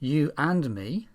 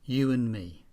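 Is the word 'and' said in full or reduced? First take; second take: full; reduced. First: The word 'and' is said in full. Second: The word 'and' is weak and reduced.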